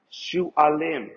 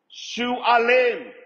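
First: Said in the usual way. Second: Shualim said higher and louder, falling off hard; emphatic repeat. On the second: Shown as a demonstration. Teacher driving home the word Shualim, emphatic. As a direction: lean hard into Shualim, calling it out.

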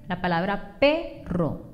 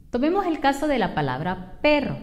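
First: Perro said slowly, first syllable PE leaned on; careful teacher stress on the PE of perro. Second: Said in the usual way. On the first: Shown as a demonstration. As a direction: stretch out perro and hit PE. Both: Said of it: "la sílaba P tiene la mayor fuerza de voz".

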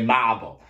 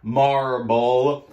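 First: Boston "marble" with the r dropped, mah-ble; Boston accent. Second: "Marble" with a full r, mar-ble; clear r in marble. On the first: Instructor showing the class her own Boston "marble". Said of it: "It's my Boston accent". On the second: Instructor repeating "Marble" clearly so the class gets the word. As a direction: say "Marble" carefully, sounding the r. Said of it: "I'm saying marble". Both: Shown as a demonstration.

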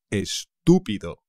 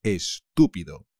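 First: Estúpido with the stress on tú. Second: Estúpido, stress on tú again; es-TÚ-pi-do, tú strong. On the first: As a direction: hit tú in Estúpido, es-TÚ-pi-do. (acento en la tú de Estúpido) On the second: (acento en tú de Estúpido) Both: Shown as a demonstration. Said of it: "Cuidado con el acento".

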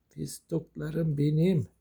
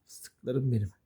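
First: Very slow, stretched cooing; drawn-out endearment. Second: Said in the usual way. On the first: Real, not acted. Owner doting on the pets, drawn-out coo. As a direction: stretch every word fondly.

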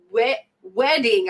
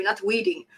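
First: Said in the usual way. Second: "weeding" with a long ee, jokingly; mock mispronounced "weeding". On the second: Shown as a demonstration. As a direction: say "weeding" as if weed.

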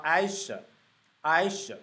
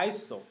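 First: "iso" with the "o" weakened to a schwa; reduced vowel. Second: "iso" with a full "oh" in "so"; full O vowel. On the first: Teacher showing the sound in long words, "iso" as eye-suh. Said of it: "而是发iso". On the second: Teacher showing the sound not used, "iso" as eye-soh. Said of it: "它就不是发iso". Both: Shown as a demonstration.

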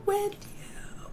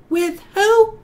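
First: WITH YOU breathed in a soft whisper; whispered answer. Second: WITH WHO? called out higher and louder; loud playful question. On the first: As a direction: drop to a secret whisper for the answer. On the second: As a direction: shout the question to set up the answer. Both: Shown as a demonstration.

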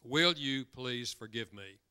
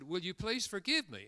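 First: Slow, stressed on Will; slow deliberate request. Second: Pleading request. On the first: Speaker demonstrating the apology language slowly to audience. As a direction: spell out each word slowly. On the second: A mother gently asking her daughter's forgiveness. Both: Shown as a demonstration. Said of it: "the one I just illustrated".

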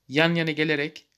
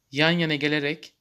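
No difference in how they are said.

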